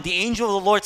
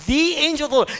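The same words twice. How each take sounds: First: Said in the usual way. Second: Emphatic, raised The to single out this one angel; stress on THE. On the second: Shown as a demonstration. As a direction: lean hard on The, pitched well up. Repeat emphasizing who the angel is.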